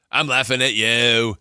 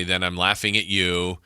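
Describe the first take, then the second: First: Louder, higher, drawn-out "laughing at you"; "I'm laughing at you" slowed and punched up; emphatic repeat. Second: Said in the usual way. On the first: Retold or imitated. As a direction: stretch out "you" and push it louder.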